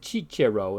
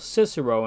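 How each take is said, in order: First: The c sounds are soft, in church-Latin style. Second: The c sounds are soft, as in English. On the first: "in ecclesiastical Latin" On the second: "in modern English"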